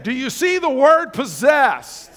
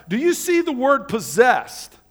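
First: Slower and a bit louder, leaning on "word" and "possessed"; preacher pressing the congregation to answer; more emphatic retry. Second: Said in the usual way. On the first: Shown as a demonstration. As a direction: say it again so the room really hears "possessed". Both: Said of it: "Okay, let's try that again".

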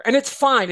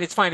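First: Fine pushed up high and loud, insisting; insisting it's fine. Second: Said in the usual way. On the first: Real, not acted. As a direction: say "fine" raised and firm, as if to convince.

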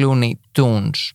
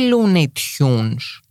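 First: "Looney Tunes" said slowly as the cartoon version; contrasting slow Looney Tunes. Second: "Looney Tunes" stretched very slowly, each syllable drawn out. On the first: Contrasting the two spellings for listeners, slow and deliberate. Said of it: "και όχι Looney Tunes". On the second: Explaining the spelling to podcast listeners, slow and drawn out. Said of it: "είμαι σε φάση, γιατί". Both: Shown as a demonstration.

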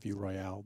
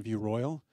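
First: "Royale" said French-style, stress on the last syllable; mock-fancy pronunciation. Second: Said in the usual way. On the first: Shown as a demonstration. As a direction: say "Royale" as roy-AL, tossed off softly. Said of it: "we like to call it View Royale".

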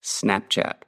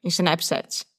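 First: "Snapchat" said in American English, snap-chat; American accent. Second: "Snapchat" said the Brazilian way, i-snep-shet; Brazilian Portuguese pronunciation. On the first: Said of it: "Eu vou falar com o sotaque americano". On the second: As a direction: read "Snapchat" with a Brazilian accent. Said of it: "como os brasileiros falam". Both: Shown as a demonstration.

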